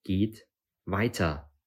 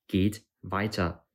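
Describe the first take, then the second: First: Weiter drawn out very slowly and firmly; slow, insistent. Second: Slow, firm call to keep going. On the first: Nabu repeating the order to the group, slow and insistent. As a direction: lean on "weiter", stretching it slowly with a falling end. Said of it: "Sie wollen euch nur einschüchtern". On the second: Nabu urging the group onward, calling firmly. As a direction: urge them on with a firm, drawn-out call. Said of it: "rief Nabu". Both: A narrator's reading.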